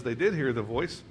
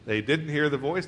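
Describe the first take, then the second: First: "did" punched, voice rising at the end; stress on did. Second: "didn't" stressed, voice rising at the end. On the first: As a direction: lean on "did" for contrast. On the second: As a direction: set "didn't" against the other verse. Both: Shown as a demonstration. Contrasting two verses' wording.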